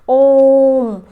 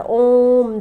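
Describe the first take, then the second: First: ओम held long and called out louder; prolonged pluta chant of ओम; drawn-out Om. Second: Said in the usual way. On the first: Shown as a demonstration. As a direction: stretch ओम like a call, ringing and long. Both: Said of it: "जैसे ओम शब्द का उच्चारण हम करते हैं ना".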